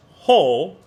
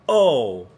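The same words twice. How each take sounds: First: "ho" with a clear breathy H before the vowel; breathy h onset. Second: "o" started with a hard catch in the throat; glottal onset. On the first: Teacher shows the right airy "ho" onset. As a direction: start "ho" on a puff of air through the H. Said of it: "Remember, it is ho". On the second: Teacher demonstrates the wrong glottal "o" onset. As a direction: snap "o" on with a glottal grab. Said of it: "not o". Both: Shown as a demonstration.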